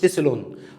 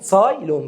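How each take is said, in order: First: The first syllable has a plain 'a' vowel. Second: The first syllable has the 'ai' glide. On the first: The speaker calls it wrong. "ما تقولش تسلون" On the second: The speaker calls it right. "هو اسمه اساسي تسايلون"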